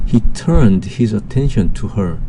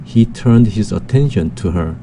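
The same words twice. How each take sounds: First: Very slow, word by word English sentence; slow dictation reading. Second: "he turned his attention to her" reread slowly, with "attention" most prominent. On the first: Teacher reading the first example sentence to students, very slow. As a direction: read it out slowly so students can follow. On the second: Teacher rereading the sentence to review its stress, slow. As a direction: go through it once more slowly, leaning on "attention". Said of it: "다시 한번 보면". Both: Shown as a demonstration.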